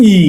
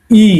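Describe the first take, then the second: First: ই said lightly, with no push. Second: ই pushed out hard and loud; pressed ই. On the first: Teacher shows a light ই to the students. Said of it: "এটা একটু হালকা করে বলতেছি সাউন্ডটা". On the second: Teacher shows a stressed ই to the students. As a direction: give ই a firm press. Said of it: "চাপ দিয়ে বলতেছি". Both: Shown as a demonstration.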